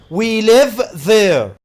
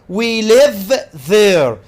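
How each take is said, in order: Both takes have the same delivery.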